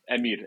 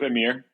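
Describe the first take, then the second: First: The R is rolled. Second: The R is not rolled. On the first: This is the native way to say the name. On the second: This is an easier form for people who cannot roll the R.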